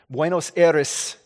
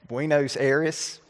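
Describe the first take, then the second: First: It is said with a careful Spanish-style accent. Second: It is said with a heavy Southern US accent. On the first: The speaker calls it right. "like my accent, I worked on that really hard" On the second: The speaker calls it wrong. "worst southern accent ever"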